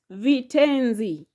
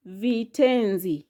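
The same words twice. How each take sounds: The two takes are said the same way.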